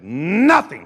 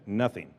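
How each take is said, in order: First: "Nothing" stretched out, swooping up then dropping; emphatic NOTHING. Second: Said in the usual way. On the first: Shown as a demonstration. Preacher showing the crowd how he said "Nothing", emphatic. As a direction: belt out "Nothing" with a big swell. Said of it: "And I said". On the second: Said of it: "only you said".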